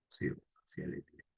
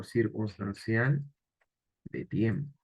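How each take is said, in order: First: Breathy under-the-breath echo of the answer; murmured self-check; whispered repeat. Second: Said in the usual way. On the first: Shown as a demonstration. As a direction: whisper "Circunstancial de tiempo" to yourself.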